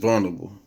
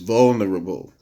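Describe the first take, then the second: First: The word is said quickly and loosely. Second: The word is said carefully and fully. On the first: The speaker calls it wrong. "when I'm talking fast, it's vulnerable" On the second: The speaker calls it right. "but it's vulnerable"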